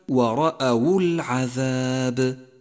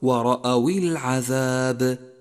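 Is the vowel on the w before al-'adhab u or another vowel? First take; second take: u; another vowel. First: The w carries the vowel u. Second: The w carries a vowel other than u. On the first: The speaker calls it right. "والصواب كما قلت لك" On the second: The speaker calls it wrong. "واحذر من قراءتها ورأوا العذاب"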